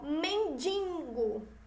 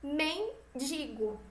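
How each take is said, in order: First: The second syllable has a nasal sound. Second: The second syllable has an oral sound. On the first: The speaker calls it wrong. "É um som nasal. Ele sai pelo nariz" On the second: The speaker calls it right. "E o certo é o quê?"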